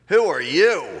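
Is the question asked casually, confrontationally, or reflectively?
confrontational. The question sounds challenging and confrontational. A challenge to the person's right to be there. "Change the inflection ... the defensive hairs on the back of our neck stand up right away"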